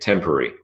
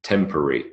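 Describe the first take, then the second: First: The word is said with three syllables. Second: The same.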